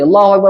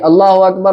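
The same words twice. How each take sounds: First: It is said quickly, without a pause after. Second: It is said slowly, with a pause after.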